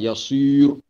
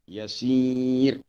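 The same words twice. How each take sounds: First: The r is said heavy and thick. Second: The r is said light and thin. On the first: The speaker calls it wrong. "Dia tak boleh tebal" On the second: The speaker calls it right. "Dia kena nipis"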